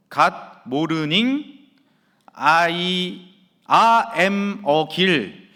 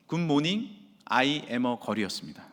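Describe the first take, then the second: First: Put-on "Good morning, I am a girl" stumbled through, very slow and louder, syllable by syllable; struggling student reading "Good morning" word by word; halting broken English reading. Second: Said in the usual way. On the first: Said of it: "어, 이런 식으로 읽는 거예요". (영어를 더듬더듬 아주 느리게 읽는 학생 흉내) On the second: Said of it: "그런데 놀랍게 이렇게 읽고 있었습니다".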